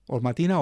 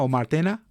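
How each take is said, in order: First: "Martina" with an "ee" in the middle, questioning; trying a pronunciation. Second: "Martena" with an "eh" in the middle; alternative pronunciation. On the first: Host checking a participant's name, trying a pronunciation. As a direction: say "Martina" as "ma-TEE-na", rising. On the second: Host asking which name is correct, alternative pronunciation. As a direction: say "Martena" as "mar-TEH-na", offered as an option. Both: Real, not acted. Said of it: "How, how do I have to pronounce?".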